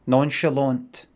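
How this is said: It is pronounced the English way, ending in t. The speaker sounds casual. "So basically nonchalant with a T at the end"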